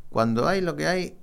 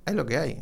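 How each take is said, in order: First: "hay" pushed high and loud, rising at the end; raised emphatic "cuando hay lo que hay"; stress on hay. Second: "lo" carries the stress in "hay lo que hay"; firm, settled "hay lo que hay". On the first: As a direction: land hard on "hay" both times. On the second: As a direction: lean on "lo", keep "hay" lighter. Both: Real, not acted.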